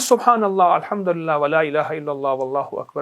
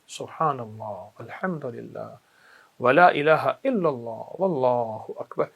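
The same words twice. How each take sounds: First: It is said quickly, without lingering. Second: It is said slowly, pausing on each word.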